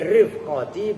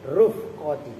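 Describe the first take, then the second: First: The first vowel is an 'i' sound. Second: The first vowel is a 'u' sound. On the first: "wa kasriha" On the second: "bidomir ra"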